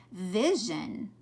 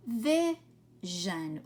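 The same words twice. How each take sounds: First: Said in the usual way. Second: "Vision" split in two with a pause between; sounded out in parts. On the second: Shown as a demonstration. Teacher showing pupils the zhun sound, word sounded out in parts. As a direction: sound out "Vision", holding the first part apart. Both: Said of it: "notice this one's making that zhun sound".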